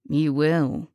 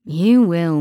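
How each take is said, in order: First: Low menacing echo. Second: Menacing killer. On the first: Killer repeats, softer and lower. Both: A narrator's reading.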